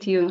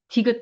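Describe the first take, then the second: First: The word ends with an ng sound instead. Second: The word ends with a clear final t sound. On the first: The speaker calls it wrong. "디응 디응 항상 이랬거든요" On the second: The speaker calls it right. "디귿 발음도 안 돼서"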